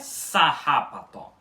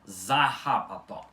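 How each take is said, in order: First: The word begins with an s sound. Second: The word begins with a z sound. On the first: The speaker calls it wrong. "com um som de S no início" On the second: The speaker calls it right. "Com som de Z no início"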